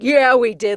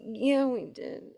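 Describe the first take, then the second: First: It is said loudly and with energy. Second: It is said quietly and meekly. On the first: The speakers have fully embraced the line. "saying it loud. Uh, [name]'s saying it louder than I am" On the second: The speakers are hesitant about the line. "kind of say it with me weekly. Like a- in the beginning"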